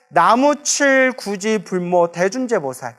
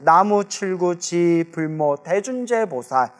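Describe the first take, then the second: First: Short breaks separate chil, guji and bulmo. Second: Syllables are grouped as chilgu and jibulmo. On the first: "나무 칠 띄고 구지 띄고 불모 띄고 대준재보살" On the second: "우리 발음으로 하면 그냥 나무 칠구 지불모 대준재"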